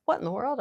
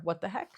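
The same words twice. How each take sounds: First: High, loud mock puzzlement; a big playful double take; cartoony surprise. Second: Mild surprise. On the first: Mom demonstrates her first option for reacting to noises. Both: Shown as a demonstration. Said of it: "so my two options there are".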